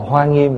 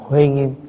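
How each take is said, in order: First: The first word is pronounced as hoa. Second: The first word is pronounced as huê. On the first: This is the usual present-day reading. "thay vì đọc là Hoa Nghiêm" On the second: This is the old way of reading it. "thì đọc là Huê Nghiêm. Tại ngày xưa đó là cái cách đọc của ngày xưa"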